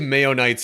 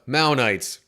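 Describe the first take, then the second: First: The first syllable sounds like 'may'. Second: The first syllable sounds like 'Mao'. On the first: "I say Mayonites and it makes me think mayonnaise" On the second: "we'll go with that as the pronunciation now"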